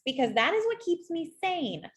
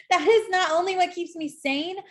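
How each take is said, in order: First: Said in the usual way. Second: "is" lifted higher and louder with a rising push; emphatic restatement. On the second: Shown as a demonstration. Astrologer insisting to Taurus, higher, louder "is". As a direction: lean hard on "is", voice up and louder.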